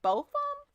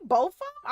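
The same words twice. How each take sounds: First: High squeaky "Both of 'em?"; squeaky disbelief. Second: Breathless whispered "both of 'em?"; whispered disbelief. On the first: Streamer squeaks at chat in mock disbelief. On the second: Streamer whispers to chat in mock disbelief. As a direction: hiss "both of 'em?" under your breath. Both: Acted. Mock outrage at chat's gift.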